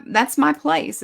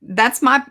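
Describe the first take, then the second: First: "my" hoch und betont, Rest abfallend; stress on my. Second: Said in the usual way. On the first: Shown as a demonstration. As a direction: lift "my" up high and lean on it.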